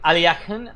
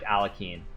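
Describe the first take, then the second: First: The name is said in a Russian-style way. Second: The name is said in an American way. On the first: "it's pronounced like Aliakin, Aliakin or something. If you speak Russian" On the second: "I only speak American, so I just say like Alakin"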